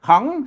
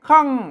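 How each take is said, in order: First: The syllable is said with a rising tone. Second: The syllable is said with a falling tone. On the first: "เสียงเจรวา" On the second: "เสียงโท"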